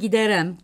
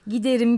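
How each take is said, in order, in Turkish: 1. Son hecede e ünlüsü var. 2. Son hecede i ünlüsü var.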